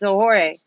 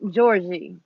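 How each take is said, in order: First: The name begins with a breathy H sound. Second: The name begins with a soft J sound. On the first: This is the Spanish reading of the name. "for Spanish it's Sohore" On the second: This reads the letter like an English G. "it could be pronounced as a G"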